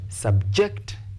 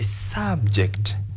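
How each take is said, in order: First: The stress is on the second syllable. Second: The stress is on the first syllable. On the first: It is used as a verb. "we stress the second syllable" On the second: It is used as a noun. "This is a noun"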